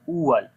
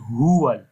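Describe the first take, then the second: First: The word begins with a glottal stop. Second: The word begins with a breathy h sound. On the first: The speaker calls it wrong. "Like Hamza sound" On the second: The speaker calls it right. "It is huwal with the ha sound"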